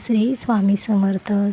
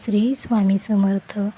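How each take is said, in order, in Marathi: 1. तो स्पष्ट आवाजात मोठ्याने म्हटला जातो. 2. तो स्पष्ट आवाजात मोठ्याने म्हटला जातो.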